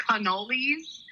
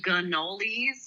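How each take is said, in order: First: Said in the usual way. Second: Imitating cannolis with a G-like start; her cannoli pronunciation. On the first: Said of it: "instead of cannolis". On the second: Teasing her weird words, imitated regional cannolis. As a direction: say cannolis as she does, softened first consonant. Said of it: "She calls them cannolis instead of".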